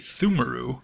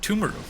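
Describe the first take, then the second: First: The name begins with a soft th sound. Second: The name begins with a hard T sound. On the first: The speaker calls it wrong. "I was about to say Thumuru" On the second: The speaker calls it right. "then I paused and said Tumuru"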